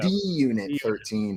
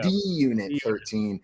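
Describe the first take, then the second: First: The handle sounds like the letter D plus unit. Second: The same.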